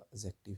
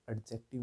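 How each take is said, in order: First: "एडजेक्टिव" as a-jective, without the D; "एडजेक्टिव" with no D sound before the J; silent D. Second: "एडजेक्टिव" with the D pronounced before the J; "एडजेक्टिव" as ad-jective, D audible; D sounded. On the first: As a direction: drop the D from "एडजेक्टिव". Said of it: "आपका एडजेक्टिव ही होता है". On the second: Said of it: "ये एडजेक्टिव नहीं". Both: Shown as a demonstration.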